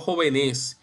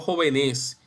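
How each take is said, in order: First: The stress falls on a later syllable. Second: The same.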